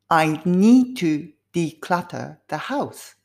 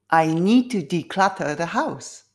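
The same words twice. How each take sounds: First: The sentence is spoken at a slow pace. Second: The sentence is spoken at a medium pace. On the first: "少しずつスピードアップでやりますね" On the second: "少しずつスピードアップ"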